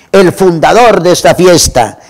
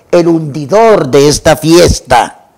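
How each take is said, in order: First: Fundador leaned on with a falling tune; stress on fundador. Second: Hundidor drawn out slowly with a falling tune, mocking the toast; slow down and hit hundidor as the twisted word; stress on hundidor. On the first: Retold or imitated. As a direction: give fundador the weight as the toast's key word. (acento en "fundador", con tono descendente) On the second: ("hundidor" lento y marcado, burlando el brindis)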